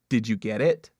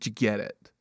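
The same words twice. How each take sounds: First: Each word is clearly and separately enunciated. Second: The words are slurred together and not enunciated.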